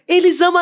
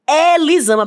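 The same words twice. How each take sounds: First: The first E is closed, São Paulo style. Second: The first E is open, Bahian style.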